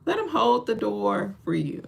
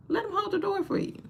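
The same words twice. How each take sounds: First: Said in the usual way. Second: Much higher, softer, pleading; high squeaky plea. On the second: Acted. Urging women to let men hold the door, high and soft.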